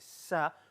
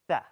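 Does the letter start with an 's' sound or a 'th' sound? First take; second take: s sound; th sound. First: It starts with a hissing 's' sound. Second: It starts with a 'th' sound. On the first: The speaker calls it wrong. "I know some of you say sa, which is not good. This is wrong" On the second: The speaker calls it right. "Tha, tha. The sin is a different letter"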